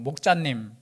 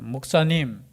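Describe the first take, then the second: First: The middle consonant is a 'j' sound. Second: The middle consonant is a plain 's' sound.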